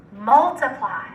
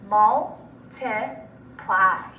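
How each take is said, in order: First: Said in the usual way. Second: Multiply in three slow, separate syllables. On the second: Shown as a demonstration. Teacher breaking Multiply up for students, syllable by syllable. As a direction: pause between mul, ti and ply in Multiply. Syllable blending drill, word broken up.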